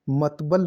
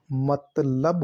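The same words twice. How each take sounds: First: "मतबल" with b before l; the garbled form "मतबल"; wrong pronunciation. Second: "मतलब" drawn out slowly, l before b; slow, careful "मतलब", ending in -lab; teacher sounding out "मतलब" with l first; correct pronunciation. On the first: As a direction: say "मतबल", the b and l swapped. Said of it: "मतबल नहीं होता". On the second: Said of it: "मतलब होता है". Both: Shown as a demonstration.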